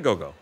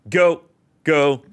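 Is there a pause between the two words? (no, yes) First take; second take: no; yes. First: The words run together with no pause. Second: There is a clear pause between the words. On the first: The speaker calls it wrong. "you don't say go-go" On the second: The speaker calls it right. "they included the comma there so you know that it's supposed to be"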